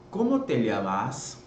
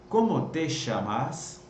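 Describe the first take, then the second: First: The ll is said like a y sound. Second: The ll is said like sh, Buenos Aires style.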